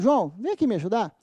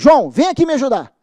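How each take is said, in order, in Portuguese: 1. Soa como um pedido educado. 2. Soa como uma ordem firme e autoritária. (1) "em tom de pedido" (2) "em tom de, de, de ordem"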